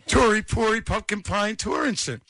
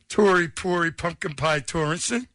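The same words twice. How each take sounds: First: It is said excited and smitten. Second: It is said in a plain, neutral way.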